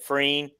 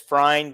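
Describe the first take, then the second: First: The vowel sounds like 'ee'. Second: The vowel sounds like 'eye'. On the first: The speaker calls it wrong. "everybody pronounces it Freen" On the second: The speaker calls it right. "my last name is Frine"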